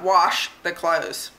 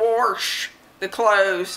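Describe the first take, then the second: First: Wash is said with a general accent. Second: Wash is said with a Southern accent. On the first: "not wash the clothes" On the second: "this is the southern in me. I say wash"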